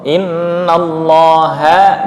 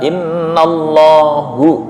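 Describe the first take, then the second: First: The word ends with an 'a' vowel. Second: The word ends with a 'u' vowel. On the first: The speaker calls it right. "harusnya ha" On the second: The speaker calls it wrong. "tapi dibaca hu"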